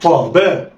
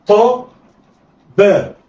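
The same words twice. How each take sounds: First: طا باء snatched together; blended quickly. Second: طا and باء each alone with a pause; letters read separately. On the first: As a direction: run طا and باء into one. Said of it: "يلا اخطف". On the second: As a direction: sound out طا then باء. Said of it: "هقول إيه؟". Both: Shown as a demonstration.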